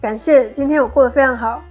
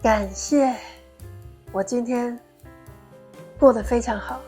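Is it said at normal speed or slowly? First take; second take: normal speed; slowly. First: It is said at normal speed. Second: It is said slowly and deliberately.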